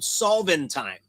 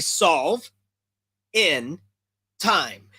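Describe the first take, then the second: First: The words are run together into one word. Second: The words are said separately with clear breaks. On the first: It sounds like a strange new word. "when you say it all at once, it sounds like this weird new word" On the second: It means solving something within a set time. "it's basically solve in time"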